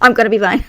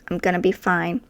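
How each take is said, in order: First: It is said in a panicky, trembling voice. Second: It is said in a calm, confident voice.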